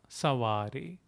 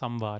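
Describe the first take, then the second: First: The first vowel is nasalized, with no separate m. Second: A full m sound comes before the v. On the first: "denotes a nasal sound. Sa, sa, savare is enough" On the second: "You can pronounce it as samvare"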